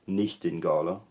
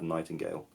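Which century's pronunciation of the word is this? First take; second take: 1400s; modern. First: It is said with a 1400s pronunciation. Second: It is said with a modern pronunciation. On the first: "in the fourteen hundreds you had" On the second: "and of course now you have"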